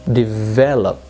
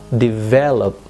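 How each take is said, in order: No difference in how they are said.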